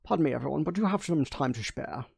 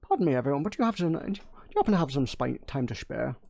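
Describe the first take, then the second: First: Light Sean Connery Scottish take; a lightly voiced Sean Connery Scottish burr; polite Sean Connery Scottish, softly asked. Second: Whispered Sean Connery Scottish retry; hushed Scottish Connery impression, half-breathed. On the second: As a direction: try the Scottish again in a whisper. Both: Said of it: "Sean Connery".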